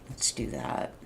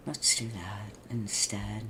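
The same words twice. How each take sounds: First: Said in the usual way. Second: Soft slowed whisper; hushed slow whisper to yourself. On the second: Real, not acted. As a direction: whisper it as a private decision. Repeats the line whispered.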